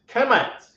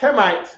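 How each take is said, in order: First: The word ends with a short 'et' sound. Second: The word ends with an 'ite' sound. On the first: This is the American-accented form of the name. "the American accent would say Kemet" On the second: This is the original form of the name. "instead of saying Kemite"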